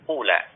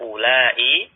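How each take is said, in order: First: The word is said short with a clipped ending. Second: The word is drawn out with a longer ending. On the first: The speaker calls it wrong. "kita baca pendek" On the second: The speaker calls it right. "cara baca dengan memanjangkan kata ula"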